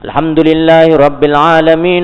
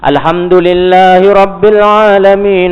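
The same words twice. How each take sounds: First: It is recited at a very fast pace. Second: It is recited at a moderately fast pace.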